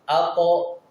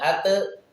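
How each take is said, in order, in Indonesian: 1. Konsonan dilepas dengan gema seperti o. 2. Konsonan dilepas dengan gema seperti e. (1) "Tapi kembali ke vokal awal" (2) "Tidak ate"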